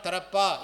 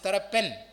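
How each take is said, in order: First: The name ends in a plain vowel, no n. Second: The name ends with a final n sound. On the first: The speaker calls it wrong. "it is not Tarappa" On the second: The speaker calls it right. "it is Tarappen"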